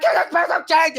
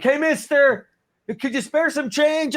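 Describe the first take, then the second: First: Very high, garbled beggar's squawk; hammed-up panhandler. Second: Hammed-up begging for spare change; panhandler plea. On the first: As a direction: squeeze the plea into a high mush. Acting out begging again, exaggerated. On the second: Acting out begging as homeless.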